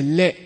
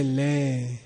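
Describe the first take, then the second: First: Short, clean 'Le'; short length. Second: Long, softer, lower 'Le'; stretched out. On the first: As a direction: keep the vowel of 'Le' short. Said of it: "three different lengths of it". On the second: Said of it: "This means stretch it out a bit". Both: Shown as a demonstration.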